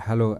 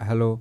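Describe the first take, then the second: The two takes are said the same way.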